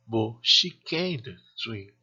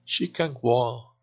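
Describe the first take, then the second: First: Slow phrase with CAN'T drawn out and accented; stress on CAN'T. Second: Slow phrase, CAN lighter than WALK; unstressed CAN. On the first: Teacher contrasts inability with ability, stress on CAN'T. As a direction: lean on CAN'T before SWIM. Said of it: "Acentuamos la palabra can't cuando es negativa". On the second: Teacher contrasts ability with inability, no stress on CAN. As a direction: put the weight on WALK, not CAN. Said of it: "Ejemplos de frases con can y can". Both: Shown as a demonstration.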